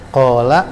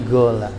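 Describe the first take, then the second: First: The word begins with a deep k sound. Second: The word begins with a g sound. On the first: "Qola menjadi gola" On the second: "menjadi gola"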